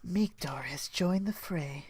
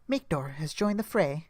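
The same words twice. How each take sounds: First: It is said in an exaggeratedly sexy voice. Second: It is said in a plain, ordinary voice.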